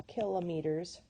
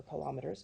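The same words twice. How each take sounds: First: "kilometers" as KIL-uh-mee-ters; first-syllable stress. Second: "kilometers" as kuh-LOM-uh-ters, said softer; second-syllable stress. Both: Shown as a demonstration. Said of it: "depending on how your accent goes".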